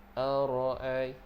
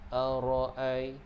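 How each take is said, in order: The two takes are said the same way.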